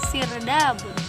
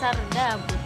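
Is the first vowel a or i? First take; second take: i; a. First: The first vowel is an i sound. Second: The first vowel is an a sound. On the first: This is the form after it entered Arabic. "fathah menjadi kasroh" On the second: This is the original foreign form. "kalimat aslinya"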